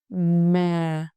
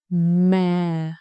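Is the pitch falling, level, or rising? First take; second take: falling; falling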